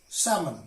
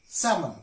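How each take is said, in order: No difference in how they are said.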